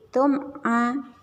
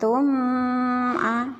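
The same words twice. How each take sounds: First: The m sound is pronounced clearly and separately. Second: The m sound is blurred into the next sound. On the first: The speaker calls it right. "semua izhar dibaca jelas" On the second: The speaker calls it wrong. "bukan tum a"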